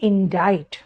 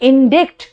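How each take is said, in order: First: The middle c is silent, rhyming with 'invite'. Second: The middle c is sounded as a k. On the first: The speaker calls it right. "बोलते हैं इंडाइट" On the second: The speaker calls it wrong. "लिखते हैं इंडिक्ट"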